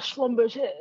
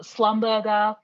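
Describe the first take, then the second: First: SCHLUMBERGER the French way, "shlum-ber-zhay"; French pronunciation. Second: SLUMBERGER said as English "slum-burger"; anglicized mispronunciation. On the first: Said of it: "it's very French". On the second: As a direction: say Slumberger flatly English, hard g and sounded final r. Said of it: "which is not how it's". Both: Shown as a demonstration.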